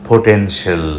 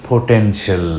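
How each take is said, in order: No difference in how they are said.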